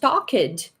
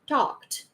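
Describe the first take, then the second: First: An extra vowel syllable is added before the final sound. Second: The ending is a single consonant with no vowel. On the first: The speaker calls it wrong. "Instead of pronounce talked" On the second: The speaker calls it right. "The same way"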